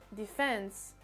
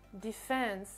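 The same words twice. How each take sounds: First: The stress is on the second syllable. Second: The same.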